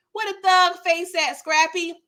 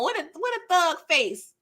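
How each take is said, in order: First: Higher, louder exclaim of disbelief; mock shocked exclaim. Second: Said in the usual way. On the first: Real, not acted.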